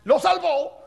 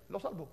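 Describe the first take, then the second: First: Lo salvó, said loud and higher, punched out; loud emphatic repeat. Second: Hushed. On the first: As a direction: hit "Lo salvó" hard and loud. ("Lo salvó" dicho fuerte y más agudo) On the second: Repeats the punchline, first hushed. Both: Shown as a demonstration.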